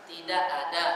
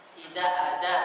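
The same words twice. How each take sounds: First: "tidak ada." with the Indonesian d; the wrong d in "tidak ada."; second d variant. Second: The correct d in "Tidak ada."; first d variant. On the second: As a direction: say "Tidak ada." with the d set back. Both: Shown as a demonstration.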